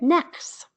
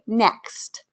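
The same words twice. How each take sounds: First: The word is said without its t sound. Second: The word is said with its t sound.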